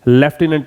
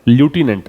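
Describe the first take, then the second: First: The first syllable sounds like 'lef'. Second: The first syllable sounds like 'loo'. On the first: "British English में से वो क्या पढ़ेंगे?" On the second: "अगर American English है तो"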